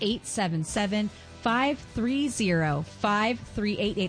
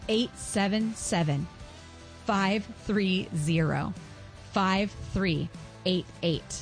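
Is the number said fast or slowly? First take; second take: fast; slowly. First: The number is said at a faster pace. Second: The number is said at a slower pace.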